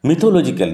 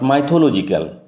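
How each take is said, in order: First: The first syllable has a short 'i' vowel. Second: The first syllable has a long 'ai' vowel. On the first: The speaker calls it right. "উচ্চারণ লক্ষ্য করো, মিথোলজিক্যাল" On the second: The speaker calls it wrong. "Not মাইথোলজিক্যাল"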